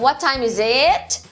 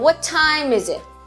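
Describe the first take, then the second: First: The word 'it' is said strongly. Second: The words 'is it' are said weakly.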